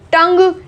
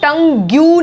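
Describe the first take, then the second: First: The word ends without any u sound. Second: A u sound is added at the end. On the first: The speaker calls it right. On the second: The speaker calls it wrong.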